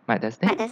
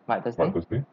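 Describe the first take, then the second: First: The voice sounds like a processed woman's voice. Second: The voice sounds like a processed, giant-like voice. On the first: "I choose woman" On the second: "If this time I want to have some like giants"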